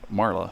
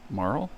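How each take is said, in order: First: The name ends with an added vowel sound. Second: The name ends on the L sound. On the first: This is how the name was long said before. The speaker calls it wrong. "for the longest time, I always pronounced it Marla" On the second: This is probably the intended pronunciation. The speaker calls it right. "but I guess it's Marl?"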